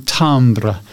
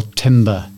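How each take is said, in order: First: Timbre said as TAHM-bruh; French-style timbre. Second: Timbre said as TIM-ber; anglicised timbre. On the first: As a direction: say timbre with an open "ah" and a final "bruh". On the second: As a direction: say timbre with a short "i", like timber. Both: Shown as a demonstration. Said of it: "It's often called tim-, timbre or timbre".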